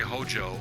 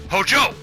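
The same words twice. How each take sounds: First: The name is said flatly, without force. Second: The name is said with a powerful, forceful inflection. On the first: The speaker calls it wrong. "You don't say Hojo" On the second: The speaker calls it right. "with a powerful inflection"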